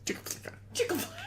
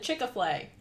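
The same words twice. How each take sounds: First: Whispered, strangled "Chick-a-Flay"; like a held-in sneeze. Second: "Chick-a-Flay" with an extra "a" in the middle; mispronounced name. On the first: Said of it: "sounded like you, like, had to sneeze". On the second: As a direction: say "Chick-a-Flay" in three parts, chick-uh-flay. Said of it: "He couldn't pronounce the name". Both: Retold or imitated.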